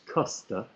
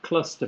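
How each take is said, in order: First: The word is said without the L sound. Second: The word is said with the L sound.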